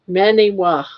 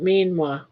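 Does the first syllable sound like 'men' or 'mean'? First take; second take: men; mean. First: The first syllable has a short 'eh' vowel. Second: The first syllable has a long 'ee' vowel. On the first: The speaker calls it right. "you are pronouncing it correctly. Many-wa" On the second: The speaker calls it wrong. "not mean-wa"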